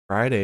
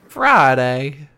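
First: It is said in a plain English accent. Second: It is said in a Southern accent.

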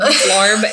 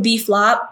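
First: The dish name is said with an r sound. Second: The dish name is said without an r sound. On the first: The speaker calls it wrong. "Can I get the beef larb?" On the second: The speaker calls it right. "just saying it correctly"

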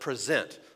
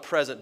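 First: The stress is on the second syllable. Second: The stress is on the first syllable. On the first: To offer or give something over. "but present. I'm pronouncing it differently" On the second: A gift. "I'm not talking about present"

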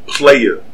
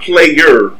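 First: The word ends in an open 'ah' sound. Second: The word ends in an 'er' sound. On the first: The speaker calls it right. "That's with a Y-A" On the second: The speaker calls it wrong.

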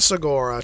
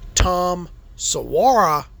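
First: The surname does not sound like Sequoia. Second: The surname sounds like the word Sequoia. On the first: The speaker calls it wrong. "not Segura" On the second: The speaker calls it right. "I think you pronounce it like the national park"

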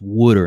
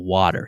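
First: It is said with a Philadelphia accent. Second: It is said with a standard American accent. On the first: The speaker calls it right. "it's pronounced water" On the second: The speaker calls it wrong. "instead of water"

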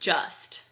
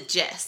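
First: It is said in a plain standard accent. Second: It is said with a Southern twang.

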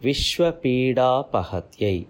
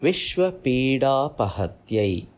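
Both takes have the same delivery.

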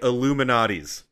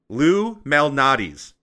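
First: The name starts with an 'ill' sound. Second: The name starts with a clear 'loo' sound. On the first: The speaker calls it wrong. "Everyone says it like they're saying Illuminati's" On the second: The speaker calls it right. "Y'all don't pronounce it correctly"

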